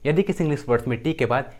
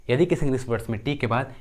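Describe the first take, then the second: No difference in how they are said.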